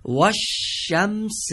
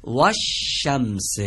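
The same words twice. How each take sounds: First: و الشمس slow and higher; slow recitation. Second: و الشمس slow, و joined to the doubled ش as wash-shams; joined reading. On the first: Teacher models the last phrase slowly. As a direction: present و الشمس slowly, rising. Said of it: "آخرین عبارت این قسمت اول رو دقت". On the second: Teacher gives the right joined reading. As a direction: link و to the doubled ش. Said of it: "اینجا پس چی باید بگیم". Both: Shown as a demonstration.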